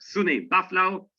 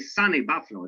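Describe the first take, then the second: First: The first syllable sounds like the word 'soon'. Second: The first syllable sounds like the word 'sun'. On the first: The speaker calls it right. "it's SUNY" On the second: The speaker calls it wrong. "don't say sunny Buffalo"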